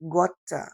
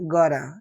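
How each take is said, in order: First: The middle consonant is a clear t sound. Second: The middle consonant is a soft d sound. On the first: The speaker calls it wrong. "এটা না বলে" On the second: The speaker calls it right. "টিটা ডি উচ্চারণ হয়"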